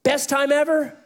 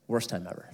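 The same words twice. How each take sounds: First: Much higher, louder, lifted question; bright high. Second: Much lower, softer, falling flat; low letdown. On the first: Preacher setting up the contrast, bright and high. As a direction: toss it up brightly. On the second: Preacher landing the contrast, low and deflated. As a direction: drop it down heavily. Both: Shown as a demonstration. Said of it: "best versus worst contrast".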